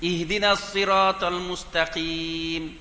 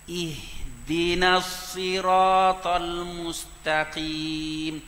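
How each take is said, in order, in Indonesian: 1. Pembukaannya diucapkan kasar dan bertekanan. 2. Pembukaannya diucapkan perlahan dan lembut. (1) "Nanti baca kasar sikit" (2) "Jadi slow depan mula-mula tu"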